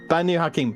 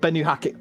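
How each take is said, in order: First: The first word begins with a 'ba' sound. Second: The first word begins with a 'beh' sound. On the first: The speaker calls it right. "Banu Hakim, not" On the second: The speaker calls it wrong. "not Benu Hakim"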